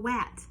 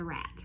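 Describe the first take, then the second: First: The word begins with a W sound. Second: The word begins with an R sound. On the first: The speaker calls it wrong. "often errors for R, specifically in the beginning of a word, is a W" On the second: The speaker calls it right. "not the rat"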